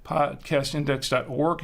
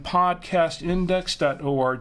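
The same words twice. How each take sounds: First: "org" said as one syllable, rhyming with morgue; said as a word. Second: "org" spelled out as three letters, O-R-G. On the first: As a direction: run "org" together as a single word, not letters. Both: Real, not acted. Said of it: "Org or O R G?".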